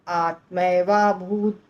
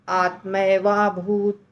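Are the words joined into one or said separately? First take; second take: joined; joined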